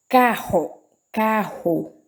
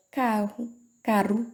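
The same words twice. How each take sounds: First: "carro" with a strong throaty double R. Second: "carro" with a lighter, softer R, almost tapped; weaker R. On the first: Teacher contrasting R sounds for students, strong first take. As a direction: hit the R in "carro" hard from the throat. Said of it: "Tem uma pronúncia forte". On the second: Teacher contrasting R sounds for students, lighter second take. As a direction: say "carro" easing off the R. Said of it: "a pronúncia é mais fraquinha". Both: Shown as a demonstration.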